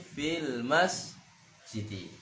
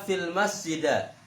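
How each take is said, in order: First: The last word ends in an i vowel. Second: The last word ends in an a vowel. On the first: The speaker calls it right. "tapi fil masjidi" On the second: The speaker calls it wrong. "Tidak bisa dibaca"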